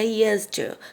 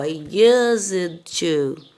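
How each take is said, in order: First: It is said fast, words linked together. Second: It is said slowly, word by word.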